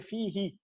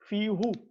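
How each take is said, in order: First: The word ends with an 'ee' vowel. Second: The word ends with an 'oo' vowel. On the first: The vowel is adapted to match the sound before it. The speaker calls it right. "they switch the dhamma to a kasra and we say fihi" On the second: It keeps the pronoun's original vowel. The speaker calls it wrong. "So we're supposed to say fihu"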